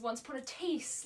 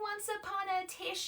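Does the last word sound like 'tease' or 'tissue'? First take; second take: tease; tissue. First: The last word rhymes with Reese. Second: The last word is said like tissue. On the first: The speaker calls it right. "like Matisse" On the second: The speaker calls it wrong. "Does it look like tissue to you?"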